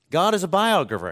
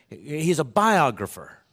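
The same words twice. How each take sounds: First: "God" set against "he's", the whole line higher and louder; stress on God. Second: Said in the usual way. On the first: Shown as a demonstration. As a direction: lift "God" and land hard on "biographer".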